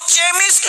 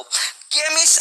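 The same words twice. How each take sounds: First: चेमिस्ट with ch as in "cheese"; mistaken CH sound. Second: केमिस्ट with a hard k opening; correct K sound. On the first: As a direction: start चेमिस्ट on a "che" sound. (चेमिस्ट की शुरुआत "च" ध्वनि से) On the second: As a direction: start केमिस्ट on "ke", as in "kemist". (केमिस्ट की शुरुआत "क" ध्वनि से) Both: Shown as a demonstration. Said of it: "इसको चेमिस्ट नहीं पढ़ेंगे".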